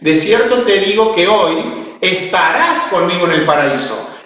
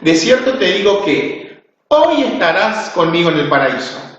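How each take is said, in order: First: The pause comes right after 'hoy'. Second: The pause comes right before 'hoy'.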